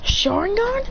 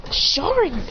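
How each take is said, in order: First: "Sharingan" high with a rising end; puzzled question. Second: "Sharingan" higher, then falling; stated recognition. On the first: He answers Naruto, "Sharingan" as a high rising question. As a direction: lift "Sharingan" into a surprised question. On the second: Naruto sees the eye, "Sharingan" as a falling statement. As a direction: say "Sharingan" high and let it drop. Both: Retold or imitated.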